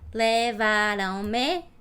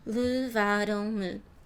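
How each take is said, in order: First: Every vowel is fully pronounced. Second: The vowels are closed, reduced and quieter. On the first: The speaker calls it wrong. "I think this is funny when I say levaram-me" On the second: The speaker calls it right. "natural for me is levaram-me. Way closer and not louder"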